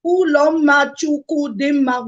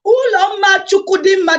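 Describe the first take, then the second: First: Slow, syllable by syllable; counted slowly. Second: Name said higher and louder, proudly; full chest. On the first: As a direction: spell the name out slowly. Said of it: "That's one, two, three". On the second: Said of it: "say it with your full chest". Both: Shown as a demonstration.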